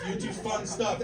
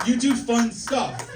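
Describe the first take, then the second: First: Said in the usual way. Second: Slow and loud, punching do; drawn-out loud You do fun stuff; emphatic. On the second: Shown as a demonstration. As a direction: hammer each word of You do fun stuff.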